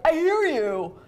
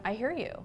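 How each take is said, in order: First: High, loud, impatient I hear you with HEAR hit hard; snappy I hear you. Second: Soft, gentle I hear you; calm acknowledgment. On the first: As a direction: fling it back irritated. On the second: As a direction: reassure your partner quietly. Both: Shown as a demonstration. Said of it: "and not do it in a way like".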